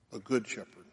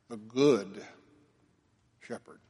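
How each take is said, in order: First: Said in the usual way. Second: Emphatic Good, fading Shepherd; stress on Good Shepherd. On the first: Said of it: "it's the emphasis". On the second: Shown as a demonstration. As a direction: lean on "Good", let "Shepherd" fall away.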